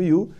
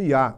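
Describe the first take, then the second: First: The word ends in a full oo vowel. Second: The word ends in a short uh vowel. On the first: "o you que você conheceu ao longo da sua vida inteira" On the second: "sendo pronunciado como ya"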